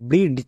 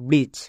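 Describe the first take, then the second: First: The d sound is clearly pronounced. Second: The d sound is left out. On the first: The speaker calls it wrong. "একে ভুল করে কেউ ব্রিজ বলবে না" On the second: The speaker calls it right. "এর উচ্চারণ ব্রিজ।"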